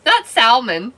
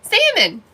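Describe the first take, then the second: First: Not salmon with the L said out; the wrong way, salmon with an L. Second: The way it should be said, Salmon with no L; salmon without L. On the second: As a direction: stress Salmon with a silent L. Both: Shown as a demonstration. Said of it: "That one you leave out the L".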